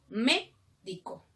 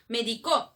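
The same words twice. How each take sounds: First: The stress is on the first syllable. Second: The stress is on the third syllable. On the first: It names the doctor. "Es el doctor" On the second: Someone prescribed something in the past. "es en tiempo pasado"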